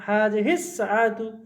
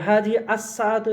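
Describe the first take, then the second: First: হাযিহিস সাআতু run together, the স of হাযিহিস joined to সাআতু; linked, right way. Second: হাযিহি আস-সাআতু with the আল said separately, not linked; separated, wrong way. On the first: Teacher giving students the correct reading, হাযিহিস সাআতু run together. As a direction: blend হাযিহিস straight into সাআতু with no আল sound. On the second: Teacher showing students the wrong reading, with হাযিহি আস-সাআতু kept apart. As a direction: say হাযিহি then a clear আস before সাআতু, unjoined. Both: Shown as a demonstration. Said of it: "এভাবে না".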